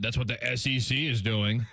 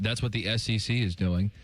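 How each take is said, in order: First: It is read in a condescending, mocking tone. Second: It is read in a plain, neutral tone.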